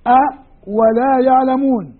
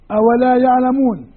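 First: "أ ولا يعلمون" slowed, with a pause after the "أ"; hamza split off. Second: Said in the usual way. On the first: Shown as a demonstration. Teacher showing students the hamza apart from the waw. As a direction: separate the "أ" from "ولا يعلمون", slowly. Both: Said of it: "بين الهمزة والواو".

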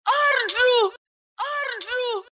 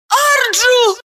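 First: High call fading softer and softer; fading echo. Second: High ringing shout of a name; distant shout. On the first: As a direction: let the name echo away into the vault. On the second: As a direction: call out a name across the hall. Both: Acted. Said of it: "Имя дробило эхо".

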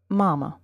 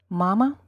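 First: "Mama" the English way, stressed first vowel lengthened, falling; English pronunciation. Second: "Mama" the Russian way, stressed first vowel, rising at the end; Russian pronunciation. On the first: Teacher showing learners the English equivalent, "Mama" in English pronunciation. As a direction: say "Mama" as an English word, pitch dropping. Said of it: "and its English equivalent". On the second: Teacher showing learners the Russian word, "Mama" in Russian pronunciation. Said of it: "following Russian word and its English equivalent". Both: Shown as a demonstration.

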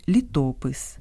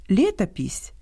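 First: «літопис» stressed on the middle syllable, ТО; Ukrainian stress. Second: «лєтопісь» stressed on the first syllable, ЛЄ; Russian stress. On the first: Host giving the Ukrainian form, middle-syllable stress. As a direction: land on ТО in «літопис». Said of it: "та українське". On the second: Host contrasting two languages, Russian first-syllable stress. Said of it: "По-різному слід наголошувати". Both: Shown as a demonstration.

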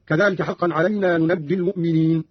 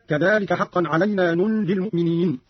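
First: ننجي with open second nun and doubled j, "nunajji"; doubled jim reading. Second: Said in the usual way. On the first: Shown as a demonstration. Teacher shows Qalun's reading, ننجي as "nunajji". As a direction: say ننجي as "nu-naj-ji". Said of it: "بفتح النون الثانية وتشديد الجيم هكذا". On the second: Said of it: "قرأ قالون بفتح النون الثانية".

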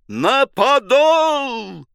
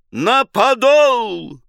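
First: Подол held very high and slow; even higher drawn-out shout. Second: High, loud, slow cry on подол; drawn-out shout. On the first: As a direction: push подол up to a peak cry. (ещё выше и протяжнее) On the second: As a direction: stretch подол into a long yell. (протяжный крик) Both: A narrator's reading. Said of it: "взвыл команду".

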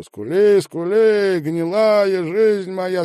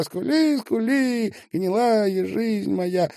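First: Loud, high, slow chant; sung, belt the verse out, dragging the last words; sung, high drawn-out wail of a song; singing. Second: Very high falsetto chant, slowing; sung, repeat the verse in a high, drawn-out falsetto; thin high sung echo; singing. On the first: Song lyrics in narrated performance. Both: A narrator's reading.

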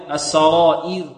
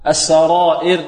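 First: السرائر with a pure i before a light ر; kasra preserved. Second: السرائر with the final i loosened to e; wrong demo of السرائر, kasra not kept; faulty kasra. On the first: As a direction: end السرائر on a clear, thin -ir. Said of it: "إذن المحافظة على الكسر". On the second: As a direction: say السرائر ending in a slack -er. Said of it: "لا نقول يوم تبلى السرائر". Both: Shown as a demonstration.

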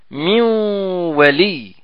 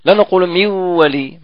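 First: من ولي merged with a long nasal hum, very slow; with ghunna. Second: من ولي read without the nasal hum; wrong reading. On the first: Quran teacher models the nasal merge, very slowly. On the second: Teacher shows the reading students must avoid, no ghunna. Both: Shown as a demonstration.

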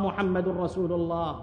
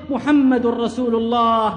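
First: Much softer and lower, dying away; fading last breath. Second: Slow, solemn, held firm; dying man's slow creed. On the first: Martyr's final words as his soul departs, fading to nothing. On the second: Martyr repeating his creed as he dies, slow and solemn. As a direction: say it slowly as life ebbs. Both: Acted. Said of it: "ثم فاضت روحه وهو يردد".

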